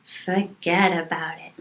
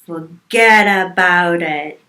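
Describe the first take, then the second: First: Soft, understated Italian-American "forget about it"; attempted Italian-American accent. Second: Loud, slow Italian-American "forget about it"; attempted Italian-American accent. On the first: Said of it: "No, that's not how you do it". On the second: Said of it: "That was closer".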